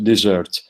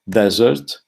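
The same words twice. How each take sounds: First: It has an older pronunciation, like deserve. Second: It has the ordinary modern pronunciation. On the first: "in fact is pronounced desert" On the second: "like the word desert"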